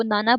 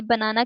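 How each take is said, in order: First: नाना with the BA of banana dropped; weak syllable deletion. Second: Said in the usual way. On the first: Retold or imitated. Lecturer shows a child dropping syllables, नाना without first syllable. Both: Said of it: "बनाना की जगह वो नाना".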